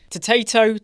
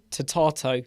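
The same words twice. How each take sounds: First: "potato" with the middle a as in day, pə-TAY-to; American potato. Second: "potato" with a broad ah, pə-TAH-to; British potato. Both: Shown as a demonstration. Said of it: "Taters, potato, potato".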